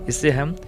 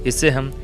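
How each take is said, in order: The two takes are said the same way.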